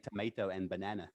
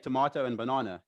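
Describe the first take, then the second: First: It is said in a Canadian accent. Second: It is said in a South African accent.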